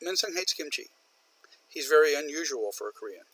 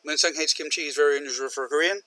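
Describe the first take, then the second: First: A stop between the sentences; pause at the semicolon. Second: Rushed into one breath; no stop between the sentences; run-on, no pause. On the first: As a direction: separate them with a pause. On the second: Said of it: "Separate them". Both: Shown as a demonstration.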